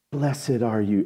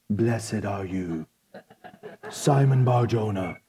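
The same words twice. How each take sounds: First: Said in the usual way. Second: Slow, hushed, low and solemn; movie-version Jesus. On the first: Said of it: "sounds like some movie version". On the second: Acted. Preacher imitating movie Jesus blessing Peter, slow low solemn voice. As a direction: intone it like a reverent film Messiah. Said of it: "he probably sounds like some movie version".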